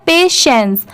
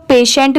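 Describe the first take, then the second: First: Final s sound in पेशेंस; correct pronunciation. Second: पेशेंट ending in a hard t; wrong pronunciation. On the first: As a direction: say पेशेंस as "pay-shens". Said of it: "इसकी sound है पेशेंस". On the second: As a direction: say पेशेंट as "pay-shent". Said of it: "वो wrong होगा". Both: Shown as a demonstration.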